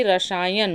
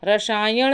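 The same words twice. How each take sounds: First: रसायन ending in dental n; plain n at the end of रसायन; correct form. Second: रसायन ending in retroflex ṇ; wrong form. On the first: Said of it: "बल्कि रसायन होता है". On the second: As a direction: curl the tongue to end रसायन. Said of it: "रसायन नहीं होता है". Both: Shown as a demonstration.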